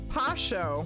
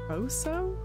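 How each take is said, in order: First: The word begins with a p sound. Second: The word begins with an f sound. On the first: The speaker calls it right. "I was way wrong. It's Pasho" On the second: The speaker calls it wrong. "Am I even saying that right?"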